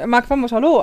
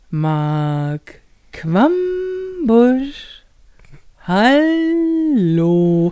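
First: It is said at a normal, quick pace. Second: It is said very slowly and drawn out.

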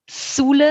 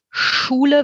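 First: The word begins with an S sound. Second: The word begins with an SH sound. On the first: "Wenn man das zu Sule nach vorn verlagert" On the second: "Schule wird in der Mitte des Mundraums gebildet"

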